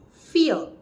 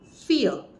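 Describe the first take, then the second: First: The vowel is clipped short. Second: The vowel is clipped short.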